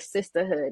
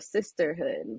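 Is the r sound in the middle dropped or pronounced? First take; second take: dropped; pronounced. First: The r sound is dropped. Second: The r sound is pronounced. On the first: "or sisterhood" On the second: "instead of sisterhood"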